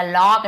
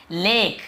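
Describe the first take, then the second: First: "लॉक" with rounded aw; deliberately wrong rounded vowel in "लॉक"; wrong aw pronunciation. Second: "लेक" with a long ay; teacher modelling ay in "लेक"; correct ay pronunciation. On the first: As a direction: misread lake as "लॉक", lawk. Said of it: "लॉक नहीं पढ़ रहे". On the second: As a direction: say "लेक" as lake. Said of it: "हम क्या पढ़ रहे हैं". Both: Shown as a demonstration.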